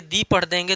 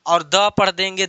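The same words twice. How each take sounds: First: The said as "दी", long ee vowel; the as "thee". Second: The said as "द", short uh vowel; the as "duh". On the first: (the को "दी" की तरह पढ़ें) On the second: (the को "द" की तरह पढ़ें) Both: Shown as a demonstration. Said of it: "तो इसका रूल".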